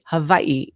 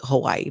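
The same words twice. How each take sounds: First: The middle consonant is a V sound. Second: The middle consonant is a W sound. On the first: This is the local, traditional pronunciation. "the correct way to say it" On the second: This is an old personal habit. "we still just called it Hawaii"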